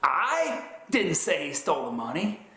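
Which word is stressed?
I. The stress is on "I".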